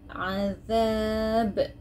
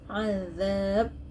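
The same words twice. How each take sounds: First: The final consonant is released with a slight echo. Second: The final consonant is held silent without release. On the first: The speaker calls it right. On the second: The speaker calls it wrong. "no way that you can read as azab, silent. That is wrong"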